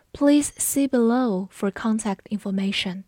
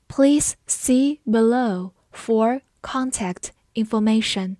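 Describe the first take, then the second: First: Said in the usual way. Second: Slow, word-by-word with pauses; 慢速示范朗读. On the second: Shown as a demonstration. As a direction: read it slowly, one word at a time. (一词一顿地慢读) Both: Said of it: "我们慢读一遍".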